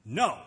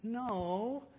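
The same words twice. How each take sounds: First: Short, loud, firm no; emphatic no. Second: Half-hearted no. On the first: Refusing a beggar and meaning it, emphatic. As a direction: say no like you really mean it. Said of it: "Say no like you do mean it". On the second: Refusing a beggar without meaning it, half-hearted. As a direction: say no like you don't mean it. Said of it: "like you don't mean it". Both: Shown as a demonstration.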